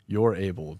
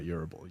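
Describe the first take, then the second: First: It is said as two separate words. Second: It is said as one blended word. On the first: The speaker calls it right. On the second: The speaker calls it wrong. "not Urable"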